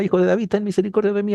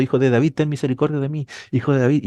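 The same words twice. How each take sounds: First: Higher, fast pleading cry; desperate crying out. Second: Mild mock cry of the blind man, barely raised; a blind man calling after Jesus, only hinted; retold crying out. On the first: Retold or imitated. Preacher voicing the blind man crying out to Jesus, higher and fast. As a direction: beg for mercy, pitch climbing and rushed. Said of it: "él clamaba y gritaba". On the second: Preacher retelling the blind beggar's cry, lightly voiced. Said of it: "estaba detrás de Jesús gritando".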